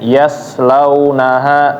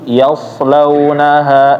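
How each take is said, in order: First: The s sound is light and thin. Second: The s sound is heavy and thick. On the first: The speaker calls it wrong. "Jangan sampai kayak huruf sin" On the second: The speaker calls it right. "harus ditebelin lagi"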